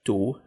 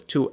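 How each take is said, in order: First: The t is released without a breathy puff. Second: The t is released with a breathy puff. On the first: The speaker calls it wrong. "فبقولهاش two" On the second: The speaker calls it right. "صوت ال T هو في صوت معاه كده صوت همس"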